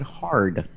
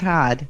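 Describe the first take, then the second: First: The word is said with a clear r sound. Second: The word is said without an r sound. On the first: The speaker calls it right. "but hard" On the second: The speaker calls it wrong. "not hard"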